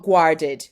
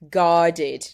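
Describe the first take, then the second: First: "guarded" as the learner's mistaken "w"-like "g"; wrong version. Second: "Guarded" with a clear hard "g". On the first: Teacher imitating the wrong "guarded" for students. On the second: Teacher correcting the "g" in "Guarded". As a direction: start "Guarded" with a firm "g". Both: Shown as a demonstration. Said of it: "not guarded".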